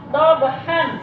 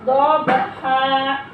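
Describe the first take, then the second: First: The word ends with an n sound. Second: The word ends on a long open vowel. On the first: The speaker calls it wrong. "ini jangan kalian baca dobhan" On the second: The speaker calls it right. "Karena ini diwakafkan, maka dibacanya yaitu seperti membaca matobi'i"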